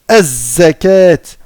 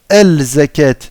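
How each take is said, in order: First: The L is silent; the Z is doubled. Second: The L is pronounced before the Z. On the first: The speaker calls it right. "On va pas prononcer en fait le lem ici. On va aller directement au zay et on va lui mettre une shadda" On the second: The speaker calls it wrong. "On va pas dire"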